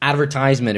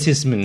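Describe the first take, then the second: First: It is said with an American pronunciation. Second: It is said with a British pronunciation.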